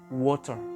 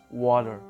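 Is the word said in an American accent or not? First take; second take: not American; American. First: It is said without an American accent. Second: It is said with an American accent.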